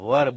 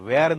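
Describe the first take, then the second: First: The vowel is a short neutral 'er' sound. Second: The vowel is an open 'e' like 'air'. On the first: The speaker calls it right. "વર બોલાય છે" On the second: The speaker calls it wrong. "વેર નથી બોલાતો"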